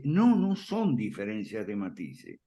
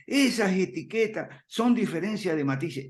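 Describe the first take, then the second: First: Said in the usual way. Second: Lightly raised, mildly mocking voice of a newcomer; a slight mock of someone who says it's all nuance; quoting newcomers. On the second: (cita algo burlona, apenas más aguda) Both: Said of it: "mucha gente que se acerca a nosotros dice".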